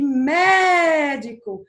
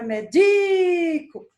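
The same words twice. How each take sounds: First: Médico with a loud, long-held MÉ; stress on first syllable. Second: Médico as meDIIco, middle syllable held long and high; stress on DI. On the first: Teacher showing a proparoxytone, médico stressed hard on MÉ. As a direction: stretch MÉ in médico, then let the rest fall. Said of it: "tem a sílaba mais forte". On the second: Teacher contrasting the paroxytone, médico stressed hard on DI. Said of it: "é, paroxítona". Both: Shown as a demonstration.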